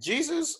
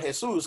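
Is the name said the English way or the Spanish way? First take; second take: English; Spanish. First: The name is said with English pronunciation. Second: The name is said with Spanish pronunciation. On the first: It refers to the religious figure. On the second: It refers to a friend down the street.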